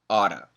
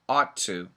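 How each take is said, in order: First: A quick flap T replaces the two Ts. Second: The two T sounds are joined and held. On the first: "if we say it fast, we get that flap T sound" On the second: "we put the T's together"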